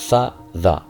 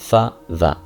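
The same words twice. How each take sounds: No difference in how they are said.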